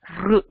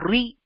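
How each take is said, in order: First: The sound is a bare r with no vowel. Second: The sound is r followed by an i vowel. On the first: The speaker calls it right. "you get the right sound" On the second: The speaker calls it wrong. "which is not the right way to pronounce this"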